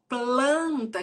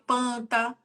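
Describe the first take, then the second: First: The L sound after the P is kept. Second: The L sound after the P is dropped. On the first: The speaker calls it right. "quando o teu filho for falar assim, ó" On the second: The speaker calls it wrong. "pode ser que ele fale panta"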